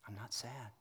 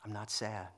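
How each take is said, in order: First: Softer retelling of the wife's words; much softer repeat. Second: Said in the usual way. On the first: Retold or imitated. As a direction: drop right down on the repeat, barely voiced. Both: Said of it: "she goes".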